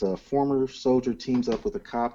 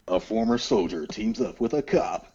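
First: It is read in a plain, ordinary voice. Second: It is read in a dramatic movie-trailer voice.

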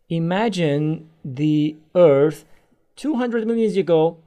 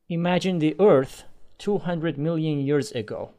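First: The speed keeps changing throughout the phrase. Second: The speed stays normal and even throughout. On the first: The speaker calls it wrong. "I constantly changed my speed" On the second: The speaker calls it right. "if I have a normal speed, I would read like this"

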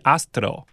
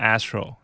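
First: The name is said Korean-style. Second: The name is said English-style.

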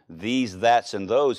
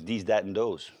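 First: The th sounds are pronounced normally. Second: The th sounds are dropped, like d sounds. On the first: "Anytime she said these, that's, and those" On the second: "French folk don't pronounce the THs"

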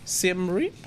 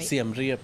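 First: The name is said with English pronunciation. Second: The name is said with Thai pronunciation. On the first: "but in English it would be Siem Reap?" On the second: "that's how I know in Thai"

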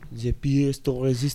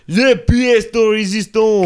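First: It is said more softly. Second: It is said at a louder volume.

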